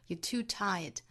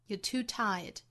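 Both takes have the same delivery.

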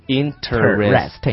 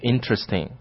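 First: The word is said slowly, every syllable full. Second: The word is said quickly and compressed. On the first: "它的拼写跟它的读音是完全一致的" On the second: "如果读得快一点的话，就是叫 interesting"

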